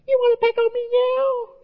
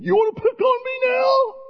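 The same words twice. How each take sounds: First: It sounds small, weak and unthreatening. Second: It sounds tough and cocky.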